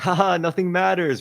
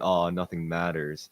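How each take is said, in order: First: It is said in a cheerful, laughing tone. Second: It is said in a sad, gloomy tone.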